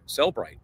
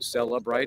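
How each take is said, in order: First: The name is said with two syllables. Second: The name is said with three syllables. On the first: "no like extra syllable in there" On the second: "I used to call it Celebrite because there is an E in there"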